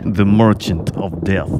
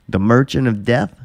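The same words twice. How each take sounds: First: It is said in a put-on Russian accent. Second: It is said in the speaker's ordinary accent.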